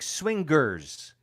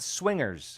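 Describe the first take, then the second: First: A hard G is sounded after the ng. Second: The ng flows straight into the ending. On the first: The speaker calls it wrong. "She keeps saying swingers" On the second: The speaker calls it right. "not swingers"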